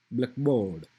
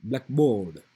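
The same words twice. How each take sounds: First: "blackboard" with black stressed first, board left weak. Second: "blackboard" with the weight on board, black kept light; stress on board. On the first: Teacher showing students the compound stress, black stressed. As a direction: hit black hard, let board fall away. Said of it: "stress will be on at the beginning". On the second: Teacher showing students the phrase stress, board stressed. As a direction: lean on the second half, board. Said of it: "board will be stressed". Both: Shown as a demonstration.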